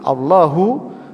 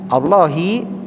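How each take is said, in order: First: The word ends with a u vowel. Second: The word ends with an i vowel. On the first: It is the predicate of an omitted subject. "dibaca Allahulladzi menggunakan dhammah pada lafadz hu" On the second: It is in apposition to the preceding words. "dibaca Allahilladzi dengan mengkasroh ha"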